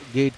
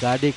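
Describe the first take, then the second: First: The name is one short syllable with an 'e' vowel. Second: The name has two syllables with a final 'eh'. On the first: Some people say it this way. "उन्हें कुछ लोग गेड कहते हैं" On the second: Some other people say it this way. "कुछ गाडे कहते हैं"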